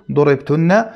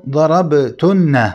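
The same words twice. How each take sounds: First: ضربتن said as durebtunna, damma on the ض; wrong passive reading. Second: ضربتن said as darabtunna, fatha on the ض, slow; correct active reading. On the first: Teacher warning students against the passive reading durebtunna. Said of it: "يتوهم ويقرأها بصيغة المبني للمجهول". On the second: Teacher showing students the right active reading darabtunna. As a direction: slowly read ضربتن as darabtunna with an open ض. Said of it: "ضربتن كذلك قال بفتح الضاد". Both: Shown as a demonstration.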